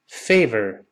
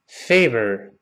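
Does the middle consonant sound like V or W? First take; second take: V; V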